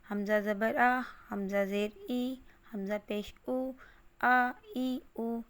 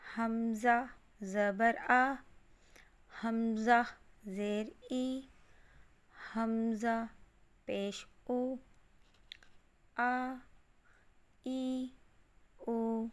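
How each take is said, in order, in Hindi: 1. सारे हिस्से एक ही सांस में मिलाकर पढ़े जाते हैं। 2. हर हिस्सा अलग-अलग पढ़ा जाता है, बीच में रुकते हुए।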